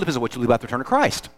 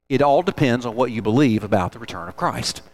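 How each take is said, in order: First: It is said at normal speed. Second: It is said slowly.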